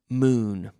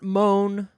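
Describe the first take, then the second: First: The vowel is a long oo sound. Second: The vowel is an oh sound. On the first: The speaker calls it right. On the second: The speaker calls it wrong. "Not moan"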